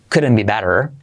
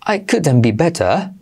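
First: American tapped t and full r; relaxed American couldn't be better; American accent. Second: English-style better with no final r; British couldn't be better; British accent. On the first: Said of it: "pero intenta no decir". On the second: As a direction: say it as in England. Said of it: "creo que lo dicen así en Inglaterra". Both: Shown as a demonstration.

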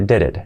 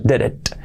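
First: "did it" as "dere(t)", t barely released; very soft final t. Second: "did it" with a crisp released t; wrong hard final t. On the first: Teacher shows T súper suave, barely released. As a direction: let the last t of "did it" fade. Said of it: "la T final súper suave". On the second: Teacher shows what it is not, hard final t. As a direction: pop the last t of "did it". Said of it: "no es did it". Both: Shown as a demonstration.

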